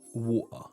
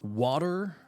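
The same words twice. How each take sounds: First: It is said with a British accent. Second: It is said with an American accent. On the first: "if you go from one extreme to the other" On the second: "we take the Americans on this side, they will go water"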